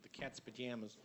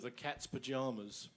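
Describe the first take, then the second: First: It is said in a Canadian accent. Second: It is said in an English accent. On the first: "I should say it with a with a Canadian accent" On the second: "said with an English accent"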